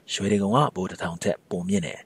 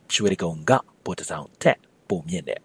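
First: It is said quickly, with the particle slurred. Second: It is said carefully, with every particle clear.

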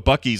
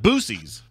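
First: The name starts with a short 'buck' sound. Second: The name starts with a long 'boo' sound. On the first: This is the usual name of the store. The speaker calls it right. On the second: This is how another person calls the store. The speaker calls it wrong.

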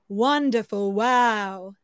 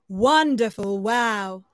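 First: It is said at a low pitch. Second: It is said at a low pitch.

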